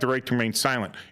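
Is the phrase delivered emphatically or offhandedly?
offhandedly. The phrase is delivered lightly and dismissively. The listener is meant to skip the right and talk. "if I wanted them to talk, I would be like"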